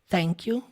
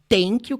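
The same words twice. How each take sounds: First: The first sound is a soft, subtle TH. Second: The first sound is a T sound. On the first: The speaker calls it right. "é igual thank you" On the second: The speaker calls it wrong. "não é thank you com som de T"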